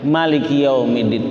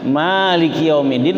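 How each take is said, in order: First: The first vowel of maliki is kept short. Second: The first vowel of maliki is drawn out long. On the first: The speaker calls it wrong. "tapi jangan diikutin" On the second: The speaker calls it right. "maknanya dipanjangin"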